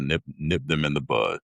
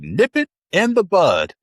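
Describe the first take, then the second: First: It is said in the speaker's normal voice. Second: It is said in Barney Fife's high-pitched voice.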